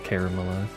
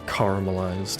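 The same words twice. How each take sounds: First: The word begins with a 'care-a' sound. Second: The word begins with a 'car' sound.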